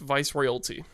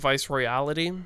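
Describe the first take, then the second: First: The second word has three syllables. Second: The second word has four syllables. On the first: The speaker calls it right. "the album's pronounced Vice Royalty" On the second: The speaker calls it wrong. "not Vice Royality"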